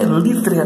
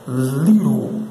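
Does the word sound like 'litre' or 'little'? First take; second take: litre; little. First: The word sounds like 'litre'. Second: The word sounds like 'little'. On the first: The speaker calls it wrong. "Não se lê litre" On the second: The speaker calls it right. "O pronunciado certo é little"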